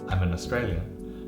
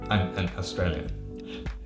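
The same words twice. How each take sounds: First: The words run together smoothly, sounds linked. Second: The words are separated, choppy and jumpy. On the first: The speaker calls it right. "much easier to say I'm an Australian quickly" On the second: The speaker calls it wrong. "Hear how it's not smooth? It's kind of jumpy"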